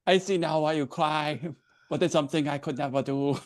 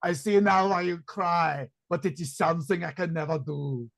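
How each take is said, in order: First: A tentative copy of the Terminator; Terminator farewell. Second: Tender Terminator line. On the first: Acted. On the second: Shown as a demonstration. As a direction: say it like the Terminator's farewell. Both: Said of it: "You need to say the line".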